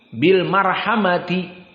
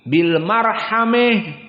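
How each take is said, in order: First: The word ends with a 'ti' sound. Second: The word ends with a fronted 'eh' sound. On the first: The verse runs on into the following verse. "Sambungkan dengan ayat yang setelahnya. Maka dibaca ta" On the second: This follows a different recognized reading tradition. "qiraah al-Kisai ... ini poinnya"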